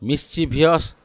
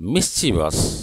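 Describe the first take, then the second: First: It has an extra 'ee' syllable before the ending. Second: It ends directly in '-vus' with no extra syllable. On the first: The speaker calls it wrong. "Wrong" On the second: The speaker calls it right. "The right pronunciation is मिस्चीवस"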